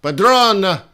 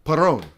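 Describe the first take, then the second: First: "Padrón" said louder and higher as the fix, "pa-DRON" with a d before the r; corrected name. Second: Perón with a plain r, no d: "pe-RON"; wrong name. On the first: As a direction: stress the second syllable of "Padrón" firmly. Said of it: "Sorry, Padrón". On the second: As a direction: say "Perón" as a mistaken guess at the name. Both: Shown as a demonstration.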